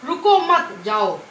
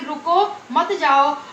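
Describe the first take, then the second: First: The pause comes right after मत. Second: The pause comes right after रुको.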